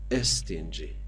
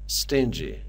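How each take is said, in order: First: A short vowel is added before the s. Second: The word starts directly with the s sound. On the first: The speaker calls it wrong. "نباید بگیم استینجی، ای نباید اولش بذاریم" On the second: The speaker calls it right. "کلماتی که با حرف اس شروع میشن در هنگام تلفظ کردن باید اس رو از حالت ساکن تلفظ کنیم"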